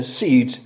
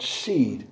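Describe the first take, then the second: First: SEEDS with the final s clearly sounded; plural s ending. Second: SEED ending cleanly on the d; singular, no s. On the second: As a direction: say "seed" softer, with no plural ending. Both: Shown as a demonstration.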